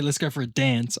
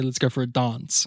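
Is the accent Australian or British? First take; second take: Australian; British. First: It is said with an Australian accent. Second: It is said with a British accent. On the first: "I don't say let's go for a dance" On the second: "I say let's go for a dance. It's the King's English"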